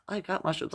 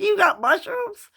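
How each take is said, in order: First: Said in the usual way. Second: High, loud, drawn-out excited shriek; excited yell. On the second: Retold or imitated. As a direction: yell it in disbelief. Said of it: "You don't have to yell, Mom".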